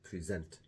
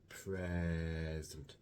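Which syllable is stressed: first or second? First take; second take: second; first. First: The stress is on the second syllable. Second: The stress is on the first syllable. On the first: It means to show or give. "with a stress on the final syllable" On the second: It means the current time. "with a stress on the first syllable"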